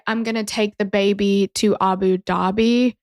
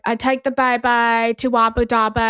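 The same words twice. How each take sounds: First: Said in the usual way. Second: Put-on light Birmingham accent, "baby" said as "bye-bye"; imitating Birmingham accent. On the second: Retelling a comedian's bit, a light Birmingham accent with "baby" said as "bye-bye". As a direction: mimic a Birmingham local, Birmingham vowels on "baby". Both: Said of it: "recreating the accent".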